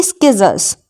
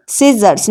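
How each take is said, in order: First: स्किजर्स said skizzers, with a k sounded; स्किजर्स, the wrong k pronunciation. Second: सिजर्स said sizzers, no k sound; सिजर्स beginning with a plain s; silent c. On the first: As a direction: put a k after the s in स्किजर्स, the learner's mistake. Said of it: "ना कि". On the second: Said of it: "ना कि स्किजर्स". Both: Shown as a demonstration.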